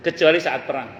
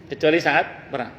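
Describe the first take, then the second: No difference in how they are said.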